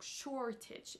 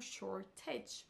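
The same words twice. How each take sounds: First: The stress is on the first syllable. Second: The stress is on the last syllable. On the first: The speaker calls it right. "C'est la première syllabe qui est accentuée" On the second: The speaker calls it wrong. "et non la dernière"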